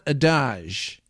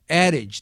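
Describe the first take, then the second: First: The word is said with a French pronunciation. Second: The word is said with an English pronunciation. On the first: The speaker calls it wrong. "not adage. Adage if we're in France" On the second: The speaker calls it right. "adage, not adage"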